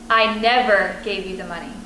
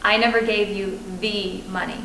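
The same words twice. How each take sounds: First: The stress is on "never". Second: The stress is on "money".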